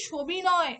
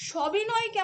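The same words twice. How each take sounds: First: সবিনয় with "sho" as first syllable; changed o vowel. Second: সবিনয়কে with "shaw" as first syllable; open first vowel. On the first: Teacher showing how we really say it, সবিনয় as "shobinoy". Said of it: "ও উচ্চারণ করে ফেলছি". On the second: Teacher reading the word as written, সবিনয়কে with open "aw". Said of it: "সবিনয়কে আমরা উচ্চারণ করি সবিনয়". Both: Shown as a demonstration.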